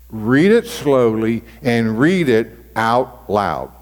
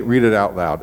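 First: Slow, deliberate read-aloud; read slowly. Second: Said in the usual way. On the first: Shown as a demonstration. Pastor showing the congregation how to read scripture slowly. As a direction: drag each word out to show slow reading.

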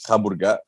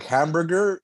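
First: Hamburger in a Greek accent, ending in an open A. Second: Said in the usual way. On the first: Shown as a demonstration. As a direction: say hamburger as a Greek would, dropping the final R. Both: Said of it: "a Greek will pronounce it A".

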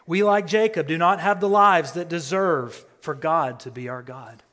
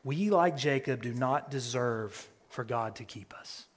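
First: Raised, building preacher voice; preaching louder. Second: Said in the usual way. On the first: Real, not acted. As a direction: drive the phrase home, louder. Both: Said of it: "repeated line, louder second time".

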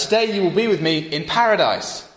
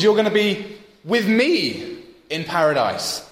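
First: "Today" up front, "paradise" with a falling close; the familiar reading, stress on "Today"; usual reading. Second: "You're" and "with me" pressed, slow, higher; stress on you're. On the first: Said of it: "often we read that as". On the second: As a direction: land on "You're", who is coming with him. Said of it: "The point is". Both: Shown as a demonstration.

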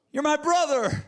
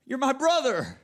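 First: Higher and louder, breaking with anguish; desperate cry. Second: Anguished plea. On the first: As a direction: push the second plea further, desperate. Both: Acted. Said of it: "pleading anguish of his soul".

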